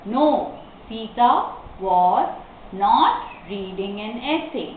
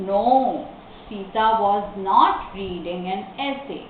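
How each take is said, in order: First: Slow dictation, pauses after each word. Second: Slow answer, pause after "No"; careful, connected example sentence; model reading. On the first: Teacher explains the comma after no, word by word. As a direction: break the answer into pieces. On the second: Teacher models the negative answer, slow reading. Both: Shown as a demonstration.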